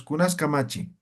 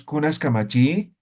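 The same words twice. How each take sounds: First: "Kamachi" left to drop with no question rise; matter-of-fact question, no lift on "Kamachi"; dry, unintoned. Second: "Kamachi" swept upward like a Spanish question; wrongly intoned question, rising on "Kamachi"; questioning intonation. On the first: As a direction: say it dry, letting "Kamachi" fall. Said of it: "Así, seco". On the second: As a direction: let the end of "Kamachi" climb as a question. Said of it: "no decimos así". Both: Shown as a demonstration.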